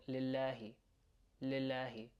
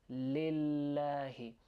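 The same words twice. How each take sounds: First: Lillahi said quickly, L not held. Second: Lillahi slow, L held long. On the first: Teacher showing what not to say, quick lillahi. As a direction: run through lillahi without lingering on the L. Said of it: "Just saying it quickly". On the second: Teacher showing learners the doubled L in lillahi, drawn out. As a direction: hold onto the L in lillahi. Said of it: "hold onto the L sound". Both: Shown as a demonstration.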